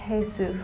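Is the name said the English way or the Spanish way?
Spanish. The name is said with a Spanish pronunciation.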